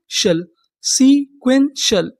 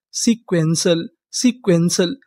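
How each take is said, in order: First: sequential stretched with a falling end; slow teaching model; drawn-out model word. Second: Said in the usual way. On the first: Shown as a demonstration. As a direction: say sequential slowly and clearly. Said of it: "sequential का मतलब". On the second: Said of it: "repeating the word".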